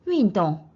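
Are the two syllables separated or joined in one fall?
joined. The two syllables fall together in one sweep. The speaker calls it right. "한 음에 윈, 똥 해서 ... 같이 내려갑니다"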